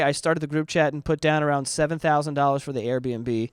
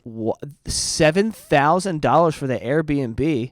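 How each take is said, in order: First: Said in the usual way. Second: Slow, stunned "seven thousand dollars"; incredulous. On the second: Acted. Rereading the price to viewers, slow and stunned. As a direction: draw out "seven" in disbelief. Repeats the figure in disbelief.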